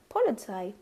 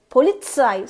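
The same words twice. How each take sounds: First: The z is soft, without a pushed ts. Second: The z is pushed out as a sharp ts. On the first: The speaker calls it wrong. "So I used to say like Polizei" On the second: The speaker calls it right. "You have to literally push the Z, uh, T, Z"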